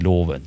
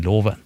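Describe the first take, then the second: First: The word is said with tonal accent 1. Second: The word is said with tonal accent 2. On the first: The speaker calls it right. "når de egentlig skal si loven" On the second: The speaker calls it wrong. "så sier de loven"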